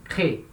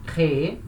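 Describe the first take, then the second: First: "crée" short, one syllable only; silent final E. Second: "créer" drawn over two syllables, cré-É; voiced infinitive ending. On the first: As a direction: stop "crée" at the first É. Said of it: "não vai ser pronunciado". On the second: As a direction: sound the last É of "créer". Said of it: "o verbo no infinitivo". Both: Shown as a demonstration.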